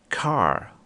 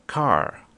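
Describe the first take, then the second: No difference in how they are said.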